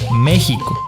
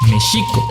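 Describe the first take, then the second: First: The x is not pronounced as sh. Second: The x is pronounced as an sh sound. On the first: The speaker calls it wrong. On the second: The speaker calls it right. "la X suena como S H, entonces es"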